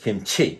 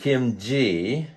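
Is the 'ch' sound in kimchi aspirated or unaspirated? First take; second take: aspirated; unaspirated. First: The ch sound has a strong puff of air. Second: The ch sound has little puff of air. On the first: The speaker calls it right. "It's kimchi" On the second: The speaker calls it wrong. "It's not kimchi"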